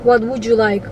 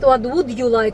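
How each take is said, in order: First: Would and you blend into a 'wouldja' sound. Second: Would and you are said as separate words. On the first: The speaker calls it right. "они говорят what would you like, G" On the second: The speaker calls it wrong. "они не говорят what would you like"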